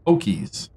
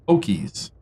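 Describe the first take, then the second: First: The middle consonant is a clear k sound. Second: The middle consonant is a clear k sound.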